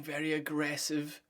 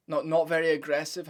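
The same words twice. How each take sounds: First: Said in the usual way. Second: "Not" hit louder to take it back; louder "not, not" correcting himself; correcting stress on not. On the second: Real, not acted. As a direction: punch "not" as a quick self-correction.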